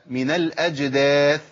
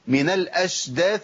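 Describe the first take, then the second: First: The jim sounds like a clear j. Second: The jim sounds like sh, with breath. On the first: The speaker calls it right. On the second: The speaker calls it wrong.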